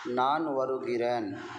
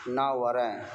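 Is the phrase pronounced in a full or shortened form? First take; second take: full; shortened. First: The phrase is pronounced in its full form. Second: The phrase is pronounced in a shortened form. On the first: This is how it is written and read. "इस तरह से लिखा जाता है, पढ़ा जाता है" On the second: This is how it is usually spoken. "आम तौर से ... इस तरह से बोला जाता है"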